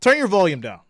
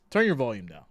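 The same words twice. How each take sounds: First: Louder, higher mock shout of the order; louder take. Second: Said in the usual way. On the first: Shown as a demonstration. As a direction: bark the order up loud first.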